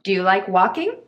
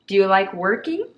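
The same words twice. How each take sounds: First: Walking with open ah, rising question; careful demonstration. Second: Working with r-coloured er, rising question; careful demonstration. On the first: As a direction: say walking as wah-king. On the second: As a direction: say working as wur-king, slowly. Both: Shown as a demonstration. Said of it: "違い聞き取りますか".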